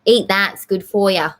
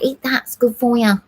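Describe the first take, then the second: First: Repeated with a hint of Manchester accent; lightly Manchester-flavoured mum; mum's line again in a mild Manchester accent. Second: A light Manchester accent imitating mum; mum's voice slipping into a mild Manchester accent; coaxing a sick kid to eat, in a hint of Manchester accent. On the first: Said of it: "I did it again". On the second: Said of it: "like a Manchester".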